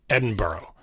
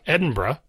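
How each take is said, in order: First: The ending sounds like the word borough. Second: The ending shrinks to one syllable, bruh. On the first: "like a borough of New York City" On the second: "Now the Burra becomes Bruh"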